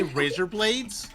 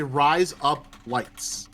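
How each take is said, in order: First: Said in the usual way. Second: Razor blades run together as Australian "Rise up lights", slow; Australian accent. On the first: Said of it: "in an Australian accent". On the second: Shown as a demonstration. Teaching friends to say razor blades in Australian accent. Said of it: "If you wanna say razor blades in an Australian accent, you say".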